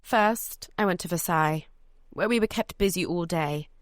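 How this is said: It is said in a British accent.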